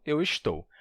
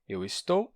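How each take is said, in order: First: "estou" with sh before the t. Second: "estou" with a hissed s before the t. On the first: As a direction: say "estou" as esh-TOU. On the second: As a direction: say "estou" with a plain s sound, es-TOU. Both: Shown as a demonstration. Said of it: "pode variar de S pra X".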